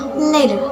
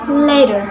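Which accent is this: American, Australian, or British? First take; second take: Australian; American. First: It is spoken with an Australian accent. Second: It is spoken with an American accent. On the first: "In Australian accents" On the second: "In American accents"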